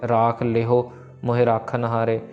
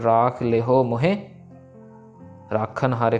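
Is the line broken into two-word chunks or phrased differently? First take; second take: two-word chunks; differently. First: It pauses after every two words. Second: It does not pause after every two words. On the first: The speaker calls it wrong. "Normally हम दो दो पे विश्राम लगा देते हैं ... ऐसे नहीं" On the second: The speaker calls it right. "फिर अलग है"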